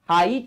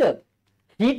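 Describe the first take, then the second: First: The vowel is an 'eye' sound. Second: The vowel is a long 'ee' sound. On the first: The speaker calls it right. "हाईट आहे हाई हाय हाय असा उच्चार आहे" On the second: The speaker calls it wrong. "हीट हीट आहे का"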